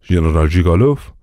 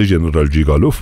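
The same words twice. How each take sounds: First: ژنرال جیگالوف said as a question, rising at the end; questioning echo. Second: Said in the usual way. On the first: A narrator's reading. Officer queries the name just heard.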